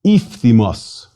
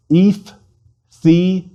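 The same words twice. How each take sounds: First: Said in the usual way. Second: Iphthimos slowly in three separate syllables, pitched higher; more slowly. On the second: Shown as a demonstration. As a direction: break Iphthimos up, pausing after each syllable. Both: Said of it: "More slowly".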